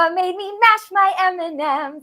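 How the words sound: The voice sounds very excited. "it's super excited"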